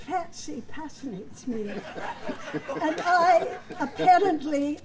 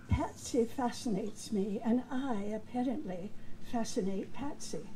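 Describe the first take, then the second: First: Slows and breaks into laughter; flubbed line. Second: Said in the usual way. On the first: Retold or imitated. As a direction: stall mid-line, laughing. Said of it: "But instead he said". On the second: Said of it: "he was supposed to say".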